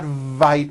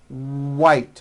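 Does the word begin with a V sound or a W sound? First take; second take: V; W. First: The word begins with a V sound. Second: The word begins with a W sound. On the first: The speaker calls it wrong. "not vite with a V" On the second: The speaker calls it right.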